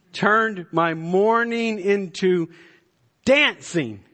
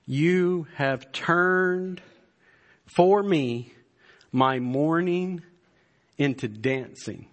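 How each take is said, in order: First: "turned" stretched out high and loud, then "dancing" landed loudly; exultant, high and loud preacher's cry; preached exclamation. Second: "turned" drawn out very slowly, each phrase set apart by a pause; slow, weighty scripture reading; deliberate slow reading. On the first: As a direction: proclaim "turned my mourning into dancing" with rising fervor. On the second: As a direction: weigh every word of "You have turned for me my mourning into dancing". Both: Shown as a demonstration. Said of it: "Listen to verse eleven".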